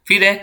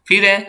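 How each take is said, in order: No difference in how they are said.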